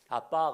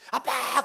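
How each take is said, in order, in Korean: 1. '아빠'를 편안하게 부르고 있어요. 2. '아빠'를 다급하고 애절하게 부르고 있어요.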